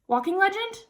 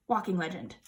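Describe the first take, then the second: First: "Walking legend" rising high at the end; questioning guess. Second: "Walking legend" low and falling, softer; resigned statement. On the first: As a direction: try "legend" as a question, pitch climbing. Guessing at a forgotten term. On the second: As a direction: drop "legend" quietly with a falling tone. Repeating the guessed term. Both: Real, not acted.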